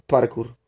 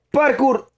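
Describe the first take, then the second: First: Said in the usual way. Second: "Parkour" called out much higher and falling; excited call. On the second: Real, not acted. Streamer jumping around in game, excited high call. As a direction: yell it like a stunt call.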